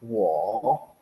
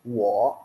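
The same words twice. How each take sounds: First: WO falls low, then rises; full falling-rising WO; full third tone. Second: WO falls only, no rise at the end; short falling WO; half third tone. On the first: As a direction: dip WO down and bring it back up. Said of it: "bacanya tuh turun baru naik". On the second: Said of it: "kalian boleh bilangnya turun aja". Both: Shown as a demonstration.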